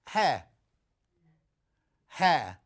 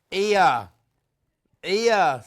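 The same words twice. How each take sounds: First: Said in the usual way. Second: Loud, h-dropped Black Country "Ear"; Black Country accent. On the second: Acted. Teasing over a misheard word, mock Black Country accent. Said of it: "it's that black country accent".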